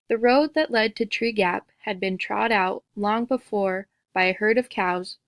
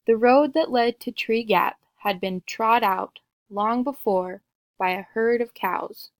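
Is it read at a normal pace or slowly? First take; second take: normal; slowly. First: It is read at a normal pace. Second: It is read a little more slowly.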